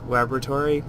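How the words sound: It is said with an American pronunciation. It is the speaker's normal way of saying it. "In American English, it's laboratory"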